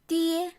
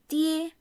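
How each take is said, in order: First: It sounds like the Mandarin syllable dee-eh. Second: The same.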